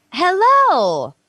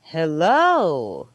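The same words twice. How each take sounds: First: "Hello" said higher and louder, falling; high pitched hello. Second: Low pitched hello. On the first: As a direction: sing "Hello" up high then let it fall. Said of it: "When you say something like". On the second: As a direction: drop "Hello" into a low register. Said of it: "but at a low". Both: Shown as a demonstration.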